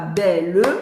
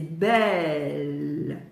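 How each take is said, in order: First: The word is split into two syllables. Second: The word is one syllable, held long. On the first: The speaker calls it wrong. "C'est pas belle, deux syllabes" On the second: The speaker calls it right. "c'est belle, une syllabe qui se prolonge"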